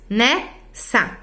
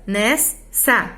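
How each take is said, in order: First: "nessa" split as ne-ssa, open first syllable; poetic syllable split. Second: "nessa" split as nes-sa, S closing the first syllable; grammatical syllable split. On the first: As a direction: break "nessa" into ne. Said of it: "Não se separam dois R's e dois S's". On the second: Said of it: "eu separo". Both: Shown as a demonstration.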